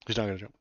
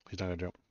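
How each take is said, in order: First: A bit louder, stressing not; louder repeat. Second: Said in the usual way. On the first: Real, not acted. Streamer telling viewers the dog won't jump, louder. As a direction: announce it again with more push on not.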